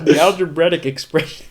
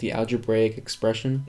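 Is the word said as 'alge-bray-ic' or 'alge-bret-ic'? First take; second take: alge-bret-ic; alge-bray-ic. First: The word is said as 'alge-bret-ic'. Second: The word is said as 'alge-bray-ic'. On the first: "he would say the algebretic" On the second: "instead of saying algebraic"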